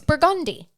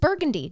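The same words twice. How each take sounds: First: It uses the pronunciation local to New Orleans. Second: It uses the pronunciation common outside New Orleans. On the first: This is how people in the city say it. "Down there, it's Burgundy" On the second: This is how people elsewhere say it. "up here, this is Burgundy"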